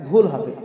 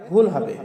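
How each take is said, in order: No difference in how they are said.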